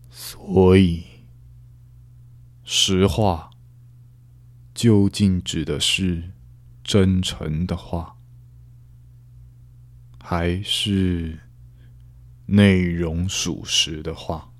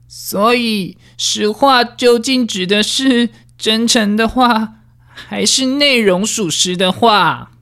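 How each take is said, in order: First: A serious, measured voice with more pauses. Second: A nasal, high, bouncy voice with a slight tremble. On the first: "讲话里面多一点严肃，多一点断句。" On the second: "鼻腔共鸣加上比较雀跃一点的语气呢，然后比较高的音调啊，然后我们在里面的断句加上一些颤抖的声音"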